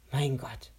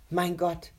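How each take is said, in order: First: Said in the usual way. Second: Admiring. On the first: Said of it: "sagte sie es noch einmal". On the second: A narrator's reading. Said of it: "sagte Rebecca bewundernd".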